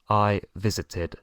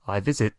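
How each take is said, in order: First: The ending is an extra 'id' syllable. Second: The ending is a bare 't' sound. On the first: The speaker calls it right. "solo se puede pronunciar de esta forma" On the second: The speaker calls it wrong. "Con otra T, ... no puede ser"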